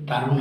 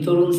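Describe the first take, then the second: First: The first vowel is an open 'a' sound. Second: The first vowel is a rounded 'o' sound. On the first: The speaker calls it wrong. "তারুণ হবে না" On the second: The speaker calls it right. "Obviously তরুণটা"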